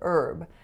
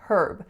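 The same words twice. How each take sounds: First: The word starts without an H sound. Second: The word starts with an H sound. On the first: This is the American way of saying it. "the H is not pronounced in most varieties of American English" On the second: This is the Canadian way of saying it. "in Canada, the H usually is pronounced"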